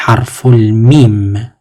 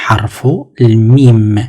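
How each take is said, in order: First: Harful mim said slowly, drawn out, mim rising; slow model pronunciation. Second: Harful mim said slowly, mim falling to close; slow model pronunciation. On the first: Teacher slowly models harful mim for students. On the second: Teacher repeats Harful mim slowly for students. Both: Shown as a demonstration. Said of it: "Donc, on dit".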